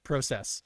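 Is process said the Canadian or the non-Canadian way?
Canadian. It is pronounced the Canadian way. The speaker calls it right. "with a Canadian and he says process"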